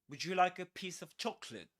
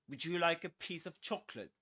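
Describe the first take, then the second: The two takes are said the same way.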